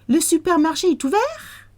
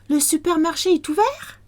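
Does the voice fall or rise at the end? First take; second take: rise; rise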